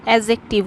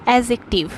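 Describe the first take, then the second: No difference in how they are said.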